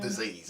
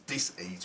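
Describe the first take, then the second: First: The word is said smoothly as one unit. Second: The word is split with a break after dis. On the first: It is an illness. The speaker calls it wrong. "not mm. disease" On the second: It is a lack of ease. The speaker calls it right. "it's dis-ease"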